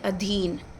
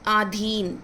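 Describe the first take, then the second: First: The first vowel is short. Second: The first vowel is long. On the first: The speaker calls it right. "ये होना चाहिए अधीन" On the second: The speaker calls it wrong. "आ की मात्रा नहीं होनी चाहिए"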